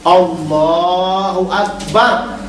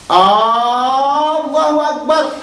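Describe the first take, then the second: First: No vowel is drawn out in the phrase. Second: The first vowel of Allahu is drawn out. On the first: It declares that God is the greatest. The speaker calls it right. "Jadi bacanya Allahu akbar" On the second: It turns the phrase into a question. The speaker calls it wrong. "Salah, tak sah salatnya... Istifham masuk kepada hamzah Allah"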